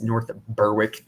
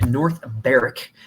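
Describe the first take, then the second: First: North Berwick said BUR-wick, w sounded; mistaken pronunciation. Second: North Berwick said BERR-ik, silent w; local pronunciation. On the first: Retold or imitated. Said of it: "don't know what they're talking about". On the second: Shown as a demonstration. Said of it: "If anyone says North Berwick".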